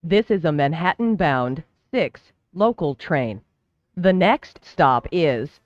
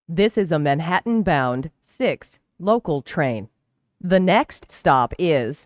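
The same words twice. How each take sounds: The two takes are said the same way.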